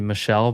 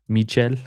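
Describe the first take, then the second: First: The name is said with English sounds. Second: The name is said with Spanish sounds. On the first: "it's supposed to be" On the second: "he's Spanish speaking, so he's"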